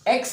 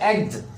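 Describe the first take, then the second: First: The word ends with a ks sound. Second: The word ends with a gz sound. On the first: The speaker calls it wrong. "लेकिन एक्स नहीं होगा" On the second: The speaker calls it right. "हम इसे पढ़ेंगे एग्स"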